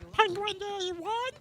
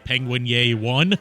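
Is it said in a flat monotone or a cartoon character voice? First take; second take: cartoon voice; monotone. First: It is said in Penta Penguin's cartoon voice. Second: It is said in a bored, flat monotone.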